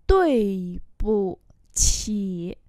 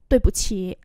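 First: Very slow, syllable by syllable; slow model reading. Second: Said in the usual way. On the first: Shown as a demonstration. Teacher modelling Chinese phrases for learners, slow and drawn-out. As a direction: stretch each syllable out for learners.

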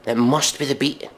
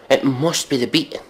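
The two takes are said the same way.

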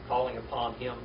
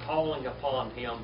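The two takes are said the same way.

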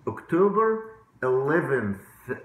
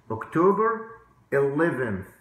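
No difference in how they are said.

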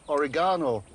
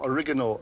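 First: Said in the usual way. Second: "oregano" said the Texan way, stressed on the second syllable; local Texan pronunciation. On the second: Shown as a demonstration. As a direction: say "oregano" American-style, o-REG-ano. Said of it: "as they call it in these parts".

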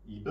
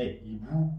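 First: "ایبو" with a short, unrounded final vowel instead of oo; wrong pronunciation. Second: "ایبو" as ee-boo, ending on a long oo; corrected pronunciation. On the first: Teacher showing students the mistake, wrong final vowel. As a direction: say "ایبو" without the oo ending. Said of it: "نه، ایبو". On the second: Teacher correcting the mistake for students, oo ending. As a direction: finish "ایبو" with a drawn-out oo. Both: Shown as a demonstration.

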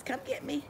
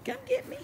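First: A hint of a playful dog voice, a bit higher and softer; voicing the dog. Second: Very high squeaky playful taunt; squeaky dog voice. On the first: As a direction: lightly voice the dog's taunt. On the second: Retold or imitated. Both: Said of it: "She says".

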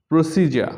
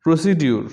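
First: প্রসিজার with a j before the end; correct pronunciation. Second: প্রসিডিউর with "di-ur" at the end; common mispronunciation. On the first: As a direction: say প্রসিজার as "pro-SEE-ja". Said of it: "ও সঠিক উচ্চারণ". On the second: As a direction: say প্রসিডিউর as "pro-si-diur". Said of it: "common কিছু শব্দের". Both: Shown as a demonstration.

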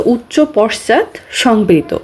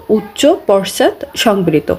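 First: Said in the usual way. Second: "উচ্চ পশ্চাৎ সংবৃত" said slowly, word by word; slow teacher's dictation; slow repeat for note-taking. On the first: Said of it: "রস্যু হচ্ছে". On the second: Shown as a demonstration. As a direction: spell out "উচ্চ পশ্চাৎ সংবৃত" slowly so students can write it. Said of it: "রস্যু হচ্ছে উচ্চ পশ্চাৎ সংবৃত".

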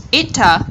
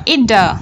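First: EAT linked to "a" with a true T, "ee-ta"; clear T linking. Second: EAT linked to "a" as "ee-da"; flapped T linking. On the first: Teacher giving learners the first option, EAT A with clear T. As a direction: keep a firm T at the end of EAT, run into "a". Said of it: "hoặc là". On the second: Teacher offering learners the alternative, EAT A with flapped T. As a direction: soften the T of EAT to a quick D before "a". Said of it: "T trung âm". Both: Shown as a demonstration.

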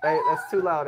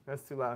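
First: Said in the usual way. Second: Dropped to a soft, low correction; softly repeating it, bringing the volume down; quieter. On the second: Real, not acted. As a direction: hush it down as you say it.

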